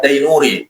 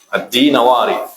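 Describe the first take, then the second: First: The name is said as Dainuri. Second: The name is said as Dinawari. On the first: The speaker calls it wrong. "baca selalu baca Ad-Dainuri" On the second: The speaker calls it right. "yang betul adalah Ad-Dinawari"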